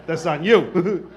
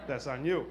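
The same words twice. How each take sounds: First: Loud, drawn-out, laughing jab; emphatic blame. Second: Soft, low repeat with a chuckle; quiet aside. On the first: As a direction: put the blame on them, loud and slow. Comic repeat, first take louder. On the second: Comic repeat, second take dropped. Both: Acted.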